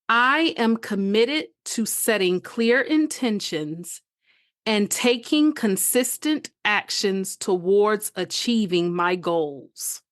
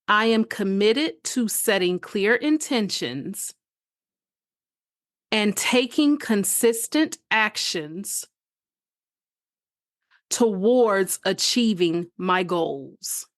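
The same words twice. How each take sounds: First: It is said at a faster pace. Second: It is said at a slower pace.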